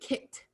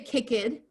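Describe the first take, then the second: First: The -ed ending is a t sound. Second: The -ed ending is not a t sound. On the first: The speaker calls it right. "we say" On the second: The speaker calls it wrong. "We don't say"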